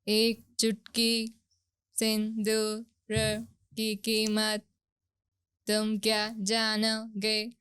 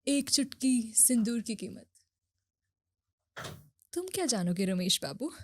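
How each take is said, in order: First: It is said in a flat, robotic Alexa voice. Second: It is said with exaggerated, dramatic soap-opera emotion.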